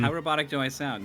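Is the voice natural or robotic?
natural. It is said in a natural voice.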